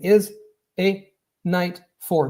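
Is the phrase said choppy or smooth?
choppy. Each word is separated by a short break. The speaker calls it wrong. "I'm not saying is a night for. This is what normally happens"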